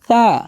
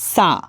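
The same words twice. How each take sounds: First: The first consonant is soft, tongue at teeth. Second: The first consonant is a plain hard s. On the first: The speaker calls it right. "হবে কি সা, soft" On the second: The speaker calls it wrong. "অনেকে বলে ফেলে সা, সা হবে না"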